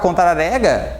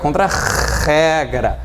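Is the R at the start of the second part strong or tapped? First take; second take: tapped; strong. First: The R after contra is a light tap. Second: The R after contra is a strong sound. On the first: The speaker calls it wrong. "Para não ficar contra-rega" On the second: The speaker calls it right. "a gente dobra a letra e fica contra-regra"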